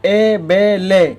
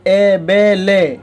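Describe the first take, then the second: The two takes are said the same way.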